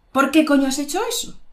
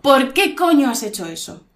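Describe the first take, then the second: First: Quick, high angry question, rising. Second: Emphatic angry demand, falling tune. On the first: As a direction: fire off an annoyed demand at raised pitch. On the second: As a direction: demonstrate anger, leaning on "coño". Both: Shown as a demonstration. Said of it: "Estoy enfadada".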